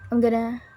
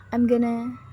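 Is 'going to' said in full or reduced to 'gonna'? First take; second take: reduced; reduced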